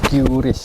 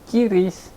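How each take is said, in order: First: It starts with the English letter name 'kyu'. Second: It starts with 'ki' before the 'r'. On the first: It follows the English reading of the letter. "di Inggris lafalannya Q. Jadi Qris" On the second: It sounds somewhat artificial. "ada yang sedikit artifisial, Kiris gitu"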